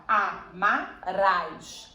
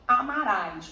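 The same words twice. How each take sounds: First: "Amarás" very slow, split A - MA - RÁS; syllable separation. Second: Said in the usual way. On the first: Shown as a demonstration. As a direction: pull "Amarás" apart syllable by syllable, each one on its own. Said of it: "A gente, a gente separa". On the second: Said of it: "a gente separa".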